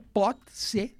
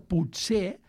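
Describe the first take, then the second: First: It is pronounced as two separate words. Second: It is pronounced as one joined word. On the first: Something can be, from the verbs can and be. "el separat es pronuncia pot ser" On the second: Something is possible, perhaps. "El juny es pronuncia potser"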